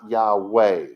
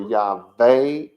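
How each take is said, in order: First: The middle consonant is a W sound. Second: The middle consonant is a V sound. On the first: The speaker calls it wrong. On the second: The speaker calls it right. "So it was supposed to stand for"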